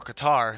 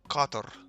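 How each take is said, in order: First: It is said with an American pronunciation. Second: It is said with a non-American pronunciation. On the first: This is how Americans say the name. "or Qatar if you're in America" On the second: This is the local way to say the name. "if I could pronounce it correctly"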